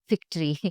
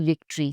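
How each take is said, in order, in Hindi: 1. यह शब्द अघोष F ध्वनि से शुरू होता है। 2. यह शब्द सघोष V ध्वनि से शुरू होता है। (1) "say victory" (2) "Don't say victory"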